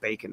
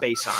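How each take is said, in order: First: The name sounds like the word 'bacon'. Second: The name sounds like 'base on', two parts. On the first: "Some people are saying bacon" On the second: "I call him base on"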